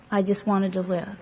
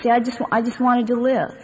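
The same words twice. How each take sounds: First: Softer repeat. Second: Said in the usual way. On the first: Real, not acted. To the meeting, repeating she wanted to live, softly. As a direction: repeat it much softer, almost to herself. Repeats the line, then drops it.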